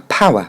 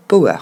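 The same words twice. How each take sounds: First: "power" as PAH-wuh, no hard r; English pronunciation. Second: "power" as po-WER, French accent; French learner's "power" with a plain o; French mispronunciation. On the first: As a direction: say "power" stressed first, falling. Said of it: "se concentrer sur le mot pouvoir". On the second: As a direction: misread "power" as po plus wer. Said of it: "lui aussi est mal prononcé". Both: Shown as a demonstration.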